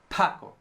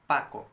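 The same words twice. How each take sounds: First: The p has a strong puff of air. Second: The p has no puff of air. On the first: The speaker calls it wrong. "an English speaker would say Paco. It moved" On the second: The speaker calls it right. "You see, it doesn't move"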